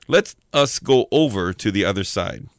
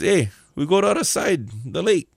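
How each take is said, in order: First: Said in the usual way. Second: Higher, casual Hawaiian pidgin suggestion; local Hawaiian style. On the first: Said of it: "N I T version, it starts out like this". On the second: Shown as a demonstration. Jesus suggesting a trip to his guys, Hawaiian pidgin. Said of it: "kinda like local style".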